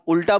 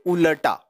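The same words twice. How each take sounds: First: उल्टा with a half ल, said as "ult-a" running straight into the ट; the common wrong way: उल्टा clipped to two syllables; wrong pronunciation. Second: उलटा with a full ल, said as "u-la-Ta" in three clear syllables; correct pronunciation. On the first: Teacher showing students the common mistake, उल्टा said with half ल. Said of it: "हम उल्टा बोलते हैं". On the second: Teacher giving students the right form, उलटा in three syllables. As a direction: give उलटा its full ल and a small vowel before ट. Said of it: "उच्चारण होना चाहिए उलटा". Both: Shown as a demonstration.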